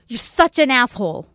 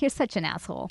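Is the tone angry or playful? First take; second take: angry; playful. First: The voice sounds angry and hostile. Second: The voice sounds playful and laughing. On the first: The speaker is genuinely insulting someone. "Or I could be really angry and grab somebody by the collar" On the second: The speaker is teasing affectionately. "I could be laughing to my girlfriend and playfully kind of push her"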